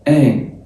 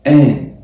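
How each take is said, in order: First: It begins directly with a nasal vowel. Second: The same.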